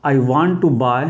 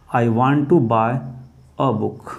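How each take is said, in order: First: Said in the usual way. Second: Slow dictation. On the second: Shown as a demonstration. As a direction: dictate it slowly so students can write. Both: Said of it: "अगला दोस्तों".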